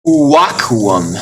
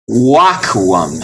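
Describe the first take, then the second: First: Uwakuum, opening on an oo vowel before wa; original U sound. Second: Wakuum starting straight on a W; no oo before the W in wakuum; later W sound. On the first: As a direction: slowly sound oo-wa at the start of uwakuum. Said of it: "was originally a uwa". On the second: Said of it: "with time it became". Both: Shown as a demonstration.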